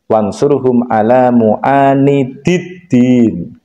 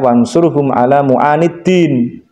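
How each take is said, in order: First: The last word keeps both 'di' syllables. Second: The last word drops one 'di' syllable. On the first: The speaker calls it right. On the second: The speaker calls it wrong.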